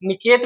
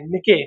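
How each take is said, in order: First: निकेत said as "ni-ket" with a clear final t; निकेत, ending on a crisp t; say it niket. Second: निके said as "ni-ke" with no final t; निके, clipped with no t sound at the end; say it nike. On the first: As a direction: pronounce निकेत with the t sounded at the end. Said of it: "निकेत भी बोलते हैं कुछ लोग". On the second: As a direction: pronounce निके as two syllables, "ni-ke". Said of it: "कुछ लोग निके बोलते हैं". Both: Shown as a demonstration.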